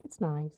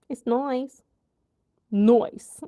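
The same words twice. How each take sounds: First: Said in the usual way. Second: Put-on playful British accent, "nice" said like "noice"; mock British accent.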